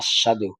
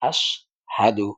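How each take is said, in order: First: The middle h sound is left out. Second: The middle h sound is clearly pronounced. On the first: The speaker calls it wrong. "অনেকে আস্বাদু কয়" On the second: The speaker calls it right. "এখানে হাটা যে আছে এটার উচ্চারণ অনেকে করে না, সেজন্য এটাকে ভালো করে"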